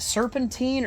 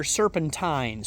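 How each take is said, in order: First: Put-on "serpentine" ending in -teen; "serpentine" rhyming with green. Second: "serpentine" ending in -tyne; "serpentine" rhyming with line; ending said as TINE. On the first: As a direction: say "serpentine" with a long ee in the last syllable. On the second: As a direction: say "serpentine" with a long i in the last syllable. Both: Shown as a demonstration. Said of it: "Is it serpentine or serpentine?".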